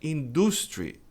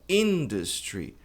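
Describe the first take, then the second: First: The stress is not on the first syllable. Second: The stress is on the first syllable. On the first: The speaker calls it wrong. "Muita gente pronuncia industry" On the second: The speaker calls it right. "mas a pronúncia é industry. Tônica está aqui, na primeira sílaba"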